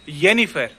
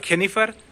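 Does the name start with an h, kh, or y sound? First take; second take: y; kh. First: It begins with a y sound. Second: It begins with a rough kh sound. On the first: The speaker calls it right. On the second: The speaker calls it wrong.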